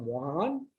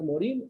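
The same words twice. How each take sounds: First: The name is pronounced with French sounds. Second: The name is pronounced with Spanish sounds.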